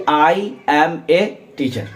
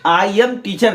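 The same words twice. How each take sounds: First: Slow, careful I am a teacher with a stressed. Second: Said in the usual way. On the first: Shown as a demonstration. Teacher corrects the student, stressing a. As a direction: lean on the little word a in I am a teacher. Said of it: "बल्कि". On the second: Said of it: "नहीं".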